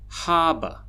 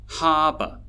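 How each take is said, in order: No difference in how they are said.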